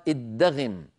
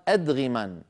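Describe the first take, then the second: First: "ادغم" said iddaghim, with doubled d; poetic-licence form. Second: "أدغما" said adghiman, with single d; second-verse form. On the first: Teacher quotes first line's form for poetic necessity, doubled d. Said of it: "من أجل ضرورة الشعر قال". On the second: Teacher quotes second verse's form, single d and final n. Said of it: "وفي البيت الثاني قال". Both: Shown as a demonstration.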